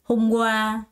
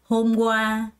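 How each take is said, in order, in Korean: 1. 두 번째 음절에 강세가 있고, 첫 번째는 가볍게 해요. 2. 두 번째 음절에 강세가 있고, 첫 번째는 가볍게 해요.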